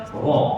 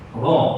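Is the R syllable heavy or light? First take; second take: heavy; heavy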